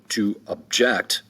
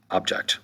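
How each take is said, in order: First: "object" as a verb, ob-JECT; stress on second syllable. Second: "object" as a noun, OB-ject; stress on first syllable. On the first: Teacher giving the verb form, "object" stressed on the second syllable. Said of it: "there is also a verb". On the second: Teacher returning to the noun, "object" stressed on the first syllable. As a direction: hit OB in "object". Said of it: "than the noun". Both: Shown as a demonstration.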